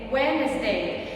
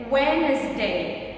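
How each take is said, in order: Both takes have the same delivery.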